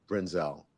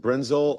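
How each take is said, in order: First: Brenzel with the stress on the last syllable, bren-ZELL; Brenzel, end-stressed with a full final vowel; second pronunciation option. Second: Brenzel with the stress on the first syllable, BREN-zul; Brenzel, front-stressed with a weak ending; first pronunciation option. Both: Shown as a demonstration. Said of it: "am I pronouncing your name correctly".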